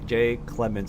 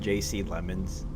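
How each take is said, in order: First: It is said as a first name, then Clemens. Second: It is said as two initials, then Lemons. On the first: The speaker calls it right. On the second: The speaker calls it wrong.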